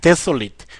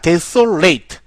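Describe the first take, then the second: First: The last syllable ends with a short 'it' sound. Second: The last syllable ends with a long 'eight' sound. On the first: It is an adjective meaning bleak or deserted. "desolate라고 읽으면 황폐한" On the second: It is a verb meaning to lay waste. "desolate 하면은 고적하게 만들다, 황폐하게 만들다라는 동사가 되겠어요"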